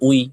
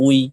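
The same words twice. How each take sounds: The two takes are said the same way.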